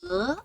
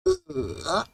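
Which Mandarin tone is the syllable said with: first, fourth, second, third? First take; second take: second; third. First: The syllable is said with the second tone. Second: The syllable is said with the third tone. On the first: "Second tone" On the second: "Third tone"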